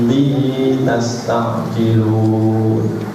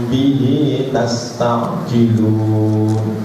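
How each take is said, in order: Both takes have the same delivery.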